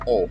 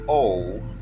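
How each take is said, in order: First: The vowel is tight and clipped short. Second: The vowel is loose and drawn out. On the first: The speaker calls it right. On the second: The speaker calls it wrong.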